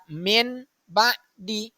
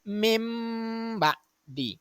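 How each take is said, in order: First: The nasal before b is an n sound. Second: The nasal before b is an m sound. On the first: The speaker calls it wrong. "Jadi bukan dibaca min ba'di" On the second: The speaker calls it right. "akan tetapi mim ba'di"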